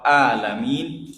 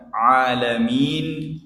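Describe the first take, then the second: First: 'alamin' opened on a plain vowel a; plain a, no ain. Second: 'alamin' opened with a squeezed throat ain, drawn out slowly; slow 'alamin' from mid-throat; ain at the start. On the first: Teacher showing the mistake meaning sick people, plain a. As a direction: say 'alamin' without any throat squeeze. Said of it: "tapi begini, a". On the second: Teacher showing the word for universe, throaty ain. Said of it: "tidak berubah menjadi ain". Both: Shown as a demonstration.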